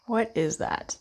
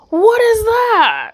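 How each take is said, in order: First: Said in the usual way. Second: Higher, louder, slow "What is that?"; a drawn-out, exaggerated "What is that?"; mock surprise. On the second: Looking at the Five of Cups.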